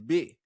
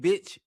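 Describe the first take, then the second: First: The final consonant of the word is dropped. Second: The final consonant of the word is pronounced. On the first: The speaker calls it right. "it's bit" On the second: The speaker calls it wrong. "it ain't bitch"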